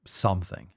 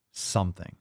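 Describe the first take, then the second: No difference in how they are said.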